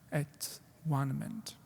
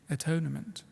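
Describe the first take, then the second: First: The middle sounds like the word 'one'. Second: The middle sounds like 'tone', run together. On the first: It means being at one. "I'll pronounce it in this way" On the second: It means making reparation. "we say atonement"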